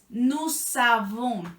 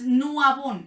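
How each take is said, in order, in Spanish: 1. La s de "nous" se une a "avons". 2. La s de "nous" es muda delante de "avons". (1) "eso hace que la S de nous suene" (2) "no es nous avons"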